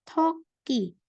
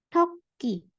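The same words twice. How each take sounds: Both takes have the same delivery.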